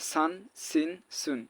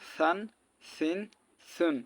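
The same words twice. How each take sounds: First: The consonant is a plain hissing s sound. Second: The consonant is a soft, lisped th-like sound. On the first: The speaker calls it wrong. "অনেকে এটাও বলে সান সিন সুন, তাহলে সিনের সঙ্গে মিলে যাবে" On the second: The speaker calls it right. "আর এটা সান সিন সুন, নরম"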